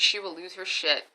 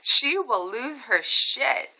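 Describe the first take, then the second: First: Said in the usual way. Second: SHE WILL LOSE HER SHIT drawn out word by word; slow emphasis. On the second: Real, not acted. Warning about mom, "She will lose her shit" slow and emphatic.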